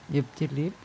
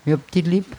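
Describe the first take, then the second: First: "Ich hab die lieb" again, much softer, almost under the breath; soft repeat. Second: "Ich hab die lieb" in plain Viennese dialect, "die" for dich. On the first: Repeating her dialect love declaration, much softer. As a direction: repeat it gently to yourself. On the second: Asked for a dialect love declaration, says it plainly. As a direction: say it the Viennese way, easy and matter-of-fact. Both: Shown as a demonstration. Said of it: "Wie klingt's im Dialekt".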